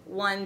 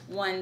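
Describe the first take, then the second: First: The voice sounds nearer and louder. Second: The voice sounds more distant and quieter. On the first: "When I stand at three feet and count to five" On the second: "Here I am at five feet"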